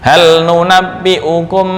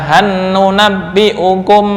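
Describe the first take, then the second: First: The L is clearly pronounced before the N. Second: The L merges into a doubled N. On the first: This is the reading of Hafs. The speaker calls it right. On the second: This falls outside the reading of Hafs. The speaker calls it wrong.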